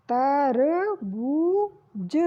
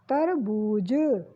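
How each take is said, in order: First: तरबूज with stretched long ऊ; slow drawn. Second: तरबूज short and lower, falling; quick repeat. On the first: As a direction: draw out तरबूज for the class. (तरबूज को खींचकर) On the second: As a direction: say तरबूज plainly once more. (तरबूज सामान्य दोहराना) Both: Shown as a demonstration. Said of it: "ऊ की मात्रा लगी".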